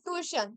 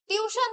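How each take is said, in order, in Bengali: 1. শব্দটি 'too-ee' ধ্বনি দিয়ে শুরু হয়। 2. শব্দটি 'tew' ধ্বনি দিয়ে শুরু হয়। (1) "স্পেলিং মনে রাখতে হবে তখন বলবে টুইশন" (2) "টিউশন যদি বলো তাহলে T U T I O N তোমাদের মনে হবে"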